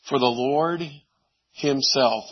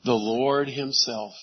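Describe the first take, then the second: First: "Lord" lifted, "Himself" falling; stress on Lord Himself. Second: "Lord" drawn out and stressed, slower; slow emphatic repeat. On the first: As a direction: lean on "Lord" then settle on "Himself". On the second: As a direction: savour "The Lord Himself" slowly. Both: Shown as a demonstration. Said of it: "that emphasis is in the original".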